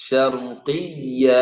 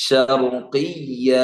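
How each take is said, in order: Both takes have the same delivery.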